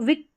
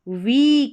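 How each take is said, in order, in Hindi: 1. स्वर छोटा है, जैसे i। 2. स्वर लंबा है, जैसे ee। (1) "इसको विक नहीं पढ़ेंगे" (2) "वीक सप्ताह"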